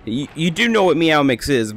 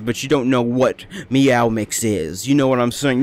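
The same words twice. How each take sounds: First: Said in the usual way. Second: Slow, ominous, shady tone; shady drug voice. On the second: Shown as a demonstration. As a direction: say it like it's illegal. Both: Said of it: "Make it sound like a drug".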